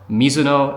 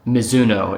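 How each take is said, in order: First: The name is said with Japanese pronunciation. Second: The name is said with American pronunciation. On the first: The speaker calls it right. "how you say it in Japanese" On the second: The speaker calls it wrong. "the Americanized version of it"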